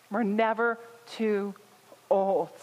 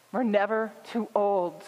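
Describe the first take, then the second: First: Put-on "We're never" then pause, "too" then pause, "old" landed firmly; slow pauses. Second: Said in the usual way. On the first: Shown as a demonstration. Pastor driving the point home to her congregation, "We're never too old" with pauses. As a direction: break "We're never too old" into three weighted beats.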